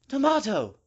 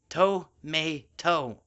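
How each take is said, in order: First: It is said in a posh, fancy accent. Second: It is said in a plain, casual accent. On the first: The speaker calls it wrong. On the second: The speaker calls it right.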